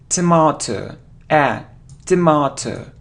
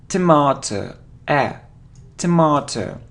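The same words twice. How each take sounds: Both takes have the same delivery.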